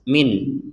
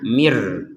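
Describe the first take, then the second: First: The final n sound is pronounced clearly. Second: The n sound merges into the following r. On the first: The reader stops after this word. "nun sukunnya ini dibaca dengan jelas" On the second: The reader continues into the next word. "nun sukunnya dimasukkan kepada huruf ro sehingga tidak dibaca min lagi"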